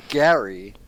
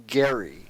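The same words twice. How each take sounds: First: Gary said with the vowel of "cat"; rejected pronunciation. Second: Gary with hard G and the vowel of "air"; corrected pronunciation. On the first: Co-host ruling out a wrong name, Gary with a flat A. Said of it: "this guy's name is Gary". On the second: Co-host settling the name, Gary as "Gair-ee", low and final. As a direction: say Gary as "Gair-ee", dropping lower. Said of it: "Not Gary. Not Jerry". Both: Shown as a demonstration.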